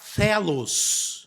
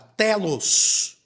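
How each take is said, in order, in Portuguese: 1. Começa com um som de th, com a língua entre os dentes. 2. Começa com um som de t simples.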